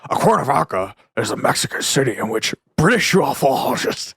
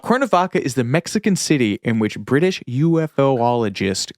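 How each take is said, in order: First: It is said in an Edgar character voice. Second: It is said in his own normal voice.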